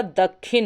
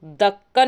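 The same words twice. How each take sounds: First: दक्षिण said as "dakkhin"; aspirated kh and an i in दक्षिण, "dakkhin"; correct form. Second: दक्कन with a held kk, "dakkan"; wrong form. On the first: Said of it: "दक्षिण होता है". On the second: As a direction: hold the unaspirated k of दक्कन. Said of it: "दक्कन नहीं होता". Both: Shown as a demonstration.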